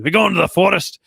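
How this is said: It is said in a heavy Scottish accent. "with like a heavy Scottish accent"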